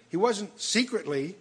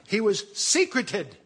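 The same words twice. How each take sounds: First: Slow, with "wasn't" pushed up and held; stress on wasn't. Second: Slow, "was" rising and stressed into "secreted". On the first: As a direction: lean on "wasn't secretly" deliberately. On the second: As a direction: land hard on "was secreted". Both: Shown as a demonstration. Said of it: "which means it's an adjective, not an adverb".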